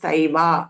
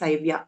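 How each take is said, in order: First: The 'v' is followed directly by the vowel. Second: A 'y' glide follows the 'v' sound. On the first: The speaker calls it right. "it is सैवा" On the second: The speaker calls it wrong. "it is not सैव्या"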